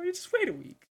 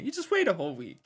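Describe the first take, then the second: First: Much higher, thin mock voice on the repeat; squeaky high echo. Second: Said in the usual way. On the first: Friend jokes about stalling the lunch lady, squeaky high. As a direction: squeak the line up high as a joke.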